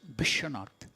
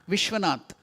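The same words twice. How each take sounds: First: The word starts with a B sound. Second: The word starts with a V sound.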